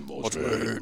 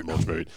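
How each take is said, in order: First: Low drawn-out sign-off with a rising end; lightly voiced catchphrase, lower and softer; video sign-off call. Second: Lower, softer second call of the name; low soft outro echo; sign-off echo. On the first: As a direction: call out the brand name like a show outro. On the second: Retold or imitated. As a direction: repeat the catchphrase as a quieter echo. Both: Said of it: "I'm always going".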